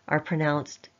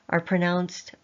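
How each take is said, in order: No difference in how they are said.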